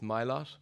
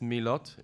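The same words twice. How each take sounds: First: The name is pronounced the Irish way. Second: The name is pronounced the French way. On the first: This is how people in Ireland say it. "In Ireland, it's Milot" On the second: This is how people in France say it. "in France, it's Milot"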